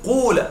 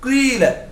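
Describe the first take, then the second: First: The first vowel is a pure u sound. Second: The first vowel mixes i with rounded lips. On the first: "أن تقلب الألف واوا وتضم الفاء ضمة خالصة" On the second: "بحركة متوسطة بين الضم والكسر"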